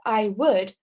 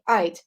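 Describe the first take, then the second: First: Both words are said in full. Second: The words are contracted into one syllable. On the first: The speaker calls it wrong. "we don't say uh, I would" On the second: The speaker calls it right. "but instead we say I'd"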